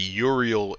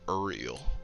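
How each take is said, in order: First: The name begins with a clear 'oo' vowel. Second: The name begins with a guttural 'er' vowel. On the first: The speaker calls it right. "It's like U, so it's like Uriel" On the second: The speaker calls it wrong. "it's not like that guttural like er"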